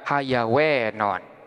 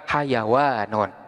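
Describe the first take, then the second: First: The long vowel is shifted toward e. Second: The long vowel is a plain open a. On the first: "boleh-boleh juga manakala dibaca imalah, jadi boleh dibaca hayawenon" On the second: "lebih baik tidak dibaca imalah, jadi tetap dibaca hayawanun"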